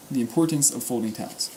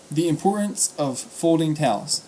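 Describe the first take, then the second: First: Quicker, lower-key title reading; understated title repeat. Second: Measured, clearly projected title reading; title announcement. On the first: Reader about to start the piece, understated title repeat. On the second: Reader introducing the first piece, title announcement. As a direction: announce the title at an even pace. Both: Real, not acted.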